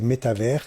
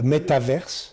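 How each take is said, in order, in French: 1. La fin se prononce comme le mot français 'univers'. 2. La fin se prononce comme le mot anglais 'verse'.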